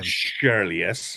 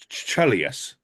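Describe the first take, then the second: First: The name begins with an 'sh' sound. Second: The name begins with a 'ch' sound. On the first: The speaker calls it wrong. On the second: The speaker calls it right. "I'm thinking it's C H at the beginning"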